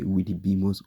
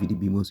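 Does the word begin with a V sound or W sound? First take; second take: W sound; V sound. First: The word begins with a W sound. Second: The word begins with a V sound. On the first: The speaker calls it right. "you rather say Vidibimos although when it starts with V" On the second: The speaker calls it wrong. "instead of saying"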